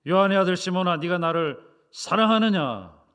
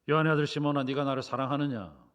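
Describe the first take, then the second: First: It is said in a much louder voice. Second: It is said sternly with firm force. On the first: The asker is pressing even harder. "아예 더 큰 소리로" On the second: The asker is growing stricter. "좀 더 엄하게 ... 좀 더 강하게"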